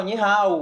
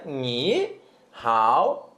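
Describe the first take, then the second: First: Said in the usual way. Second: "Ni hao" split into two low, separate syllables. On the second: Shown as a demonstration. Teacher showing learners the two syllables, "Ni hao" said syllable by syllable. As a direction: say "Ni", pause, then "hao". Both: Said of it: "Reparem que são duas sílabas".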